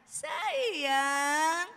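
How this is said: It is said in a gentle, loving tone.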